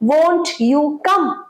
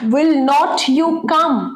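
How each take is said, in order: First: Will not is contracted into one syllable. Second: Will not is said as two full words.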